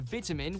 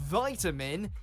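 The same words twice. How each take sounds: First: The first vowel is short, British style. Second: The first vowel is long, American style.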